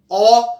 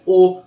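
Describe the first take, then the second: First: The vowel is said with the mouth more open. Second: The vowel is said with the mouth more closed. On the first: "a boca está mais aberta" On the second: "A boca está mais fechada"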